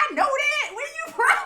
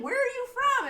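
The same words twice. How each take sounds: First: High, loud, laughing insistence; laughing shout. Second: Said in the usual way. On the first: Retold or imitated. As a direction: laugh and push the question. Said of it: "She's like". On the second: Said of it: "she's like".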